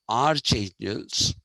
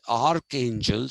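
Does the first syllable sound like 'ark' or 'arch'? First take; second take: arch; ark. First: The first syllable sounds like arch. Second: The first syllable sounds like ark. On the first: The speaker calls it wrong. "and not archangels" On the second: The speaker calls it right. "that's why these people are called arch archangels"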